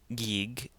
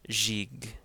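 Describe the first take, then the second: First: It starts and ends with a hard G. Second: It starts with a soft J and ends with a hard G. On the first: The speaker calls it wrong. "it's not Gig" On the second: The speaker calls it right. "it's Jig"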